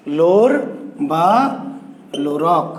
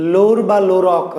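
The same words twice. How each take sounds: First: লোর, বা and লোরক each set apart by long pauses; slow spaced-out naming. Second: Said in the usual way. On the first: Shown as a demonstration. Teacher spelling the hero's name to students, slow and spaced. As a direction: spell out লোর ... বা ... লোরক slowly, one word at a time.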